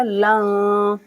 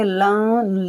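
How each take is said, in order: First: लन with the n hidden in a nasal hum; nasal ikhfa. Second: लन with a clear, plain n; wrong clear n. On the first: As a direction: say लन hiding the n in the nose. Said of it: "यहाँ पर इख्फा करेंगे". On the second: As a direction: say लन with the n fully pronounced. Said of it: "लन नहीं पढ़ा जाएगा". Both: Shown as a demonstration.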